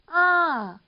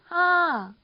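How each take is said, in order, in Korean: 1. 음이 높이 올라갔다가 떨어져요. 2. 음이 높이 올라갔다가 떨어져요.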